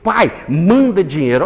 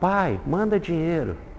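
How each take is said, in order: First: It is read in a harsh, demanding tone. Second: It is read in a soft, affectionate tone. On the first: The son is making an arrogant demand. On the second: The son is asking kindly for help.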